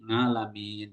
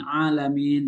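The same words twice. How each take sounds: First: "ngalamin" with a nasal ng onset for alamin; Javanese ngalamin. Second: Said in the usual way. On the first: Shown as a demonstration. Explaining Javanese speakers' pronunciation, "ngalamin" with ng onset. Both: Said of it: "alamin itu Jawa menjadi".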